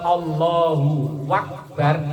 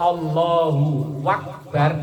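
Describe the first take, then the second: First: A w sound is inserted before Akbar. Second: The same.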